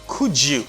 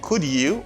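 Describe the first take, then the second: First: The d and y merge into a j sound. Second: The d and y are said separately. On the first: The speaker calls it right. "D avec Y là, pile fois, most of the time, it gives you the J sound" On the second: The speaker calls it wrong. "instead of saying could you"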